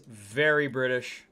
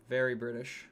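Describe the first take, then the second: First: Said in the usual way. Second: A light put-on British accent, softer; mock British accent. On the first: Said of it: "Ame agrees". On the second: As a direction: drop into a hint of a British accent.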